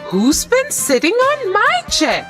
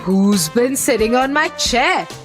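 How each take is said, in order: First: It is asked wonderingly in Mama Bear's voice. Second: It is howled loudly in Daddy Bear's voice.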